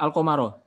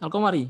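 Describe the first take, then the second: First: The word ends with an 'a' vowel. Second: The word ends with an 'i' vowel. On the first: "Boleh nggak al-qamaro? Nggak boleh" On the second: "nggak boleh"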